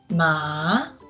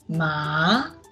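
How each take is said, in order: Both takes have the same delivery.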